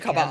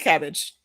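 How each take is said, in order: First: The word is said with French-style sounds. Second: The word is said with plain English sounds. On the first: "the French way of saying it" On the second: "I'ma still say cabbage"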